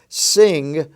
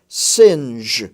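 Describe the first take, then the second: First: The word ends in a hard g sound. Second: The word ends in a j sound. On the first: The speaker calls it wrong. "It's not pronounced sing" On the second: The speaker calls it right. "it's pronounced singe"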